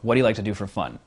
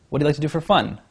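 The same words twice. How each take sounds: First: The voice falls at the end, firm and commanding. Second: The voice rises at the end like a question. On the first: The speaker sounds confident and in control. The speaker calls it right. "in a commanding way" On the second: The speaker sounds unsure and nervous. The speaker calls it wrong. "horrible uptalk"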